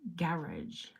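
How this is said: The word is said with a British accent. "It's garage"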